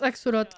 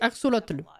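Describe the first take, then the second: First: The word ends without a final L sound. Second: The word ends with an audible L sound. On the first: "Je le prononce axolot" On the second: "toutes les autres que j'ai trouvées, c'est axolotl"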